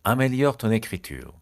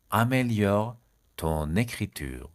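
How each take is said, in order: First: Said in the usual way. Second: "Améliore", long pause, drawn-out "ton écriture"; slow right down on "ton écriture"; slow and split. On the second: Shown as a demonstration. Teacher giving learners the French phrase, slowly in parts.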